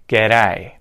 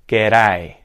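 The two takes are said the same way.

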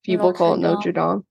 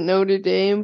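First: The name is said the Paris cathedral's way. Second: The name is said the college's way. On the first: It names the cathedral in Paris. "the thing in Paris is called Notre Dame" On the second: It names the American college. "The college people pronounce it Notre Dame"

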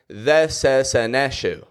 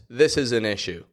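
First: The short I vowels are replaced by an E sound. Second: The vowels are said with a short I sound. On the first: The speaker calls it wrong. "You'll say more" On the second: The speaker calls it right. "you won't be able to say the words"

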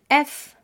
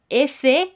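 First: The letter is named with French pronunciation. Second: The letter is named with Spanish pronunciation. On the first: "que se convierte en F" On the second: "La letra F"

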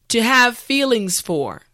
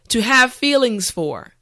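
Both takes have the same delivery.

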